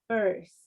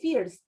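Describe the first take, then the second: First: The vowel is not pronounced like an 'ee' sound. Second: The vowel is pronounced like an 'ee' sound. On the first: The speaker calls it right. "We say first" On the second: The speaker calls it wrong. "an I in English is never E, E. So we don't say first"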